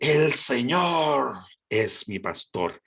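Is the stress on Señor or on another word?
Señor. The stress is on Señor.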